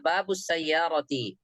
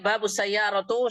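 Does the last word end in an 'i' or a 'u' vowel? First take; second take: i; u. First: The last word ends with an 'i' vowel. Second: The last word ends with a 'u' vowel. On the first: The speaker calls it right. "yang benar" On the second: The speaker calls it wrong.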